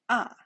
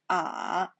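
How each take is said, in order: First: The pitch falls sharply from high. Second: The pitch dips low then rises. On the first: "The fourth time" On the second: "The third time"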